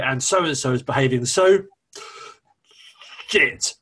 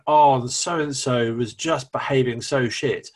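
First: It pauses, then heavily stresses the swear word. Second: It flows without a pause or heavy emphasis.

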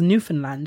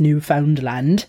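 First: The middle syllable is reduced; 'new' and 'land' stand out. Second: The middle syllable 'found' is fully pronounced. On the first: This is how the locals say the name. "they weren't pronouncing the found. They were really pronouncing the new and land" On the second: This is how most outsiders say the name. "I'm going to say it the traditional way first, the way that most people think it's pronounced"

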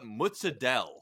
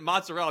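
First: The consonant before -ella is a d sound. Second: The consonant before -ella is an r sound. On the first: The speaker calls it wrong. "they call it mozzadella. I'm like, it's not mozzadella, dude" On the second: The speaker calls it right. "If they called it mozzarella, I'd be like, okay"

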